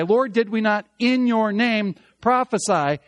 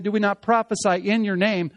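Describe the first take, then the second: First: "in your name" pushed forward with weight; stress on "in your name". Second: Said in the usual way. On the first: Shown as a demonstration. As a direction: lean hard on "in your name" before "prophesy". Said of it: "That's actually reversed". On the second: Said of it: "In our translation, we have that".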